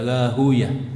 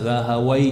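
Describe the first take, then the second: First: The name ends with a 'yah' sound. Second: The name ends with a 'wai' sound. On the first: This is how hadith scholars read the name. "para ahli hadis kebanyakan membaca nama beliau adalah Rahuyah" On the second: This is how language scholars read the name. "dibaca oleh para ahli bahasa Rahawai yang betul"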